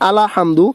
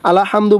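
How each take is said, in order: Both takes have the same delivery.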